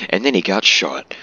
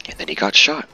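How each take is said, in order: First: Amused self-quote, lifting THEN and falling at the end; mock casual. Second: Offhand remark, lifting on SHOT; casual. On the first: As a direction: repeat it as a mock offhand remark. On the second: Real, not acted. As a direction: toss it off casually, voice rising at the end. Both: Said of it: "said that so casually".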